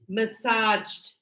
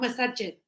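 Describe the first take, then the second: First: The ending is joined onto the last syllable. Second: The ending is said as an extra syllable. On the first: The speaker calls it right. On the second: The speaker calls it wrong.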